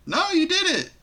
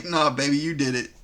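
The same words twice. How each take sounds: First: High-pitched, squeaky blame throw-back; swooping high mock denial; mock accusation. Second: Low, smooth-talking blame shift; casual low-voiced deflection, acted; mock gaslighting denial. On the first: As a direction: imitate a childish "not me" in a much higher voice. Mimicking the absurd blame-shifting. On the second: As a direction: imitate a boyfriend calmly pinning it on her. Mimicking the gaslighting bed-wetter's denial.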